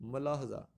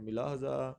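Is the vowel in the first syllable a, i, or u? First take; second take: a; i. First: The first syllable has an a vowel. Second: The first syllable has an i vowel. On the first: The speaker calls it right. "दुरुस्त option जो है ... मलाहजा" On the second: The speaker calls it wrong. "कुछ इसको पढ़ते हैं मिलाहजा"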